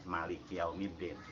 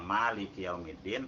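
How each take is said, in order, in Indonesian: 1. Vokal pertama pada maliki pendek. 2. Vokal pertama pada maliki panjang. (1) "ada yang dibaca tanpa alif" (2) "ada yang dibaca pakai alif"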